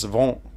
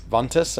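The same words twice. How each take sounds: First: "vent" as a nasal "von" with a silent t; French pronunciation. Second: "ventus" with every letter sounded, VON-tus; Spanish pronunciation. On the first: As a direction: drop the final letters of "vent", French style. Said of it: "you don't even hear, like, half the letters". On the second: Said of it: "Spanish is, like, everything is, is, is pronounced". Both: Shown as a demonstration.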